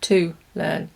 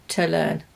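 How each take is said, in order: First: "to" said fully as "too"; full vowel in "to", "too learn"; strong form. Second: "to" reduced to a schwa, "tə learn"; weak form. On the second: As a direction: swallow the "to" into "tə". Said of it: "Did you notice I said to learn". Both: Shown as a demonstration.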